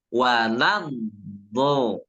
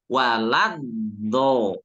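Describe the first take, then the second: Both takes have the same delivery.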